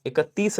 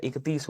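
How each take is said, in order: First: "इकतीस" said with an added short a, ik-a-tees; three syllables in "इकतीस", i-ka-tees; wrong extra vowel. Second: "इकतीस" said ik-tees, no vowel after k; correct two syllables. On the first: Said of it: "इकतीस नहीं होता है". ("इकतीस" को "इकत्तीस" जैसा गलत बोलें) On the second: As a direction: close k straight onto tees in "इकतीस". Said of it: "इकतीस होता है". ("इकतीस" में क के बाद स्वर नहीं, इक्-तीस) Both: Shown as a demonstration.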